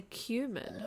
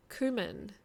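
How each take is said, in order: First: "cumin" said as KYOO-min; "cumin" starting like "cue"; pronunciation demo. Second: "Cumin" said as KOO-min; "Cumin" starting like "coo"; pronunciation demo. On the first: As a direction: say "cumin" with a y glide after the k. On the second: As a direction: say "Cumin" with a plain oo, no y sound. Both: Shown as a demonstration. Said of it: "Apparently say cumin".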